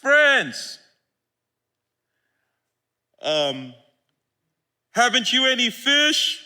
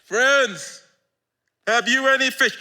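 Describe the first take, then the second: First: Called out louder and higher across the water; a friendly call from the beach; Jesus calling out. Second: Louder, higher hail from shore; a friendly shout from the beach; Jesus calling out. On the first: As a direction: hail the disciples from the shore. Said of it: "He called out to them". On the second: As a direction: call across the water warmly. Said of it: "he called out to them". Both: Acted.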